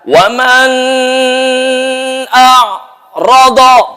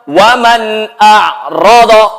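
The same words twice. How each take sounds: First: The n sound is not pronounced clearly. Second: The n sound is pronounced clearly and distinctly. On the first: The speaker calls it wrong. "Itu bacaan salah" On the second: The speaker calls it right. "Kenapa dibaca jelas?"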